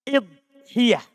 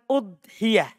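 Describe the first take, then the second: First: The first vowel is an 'i' sound. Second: The first vowel is an 'u' sound. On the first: This is an accepted variant form. "Bisa juga kita kasroh hamzanya" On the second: This is the most common form. "itu yang paling terkenalnya"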